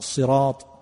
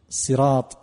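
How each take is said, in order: First: The first consonant is blended with a z sound. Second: The first consonant is a plain emphatic s.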